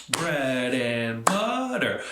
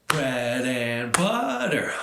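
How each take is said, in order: Both takes have the same delivery.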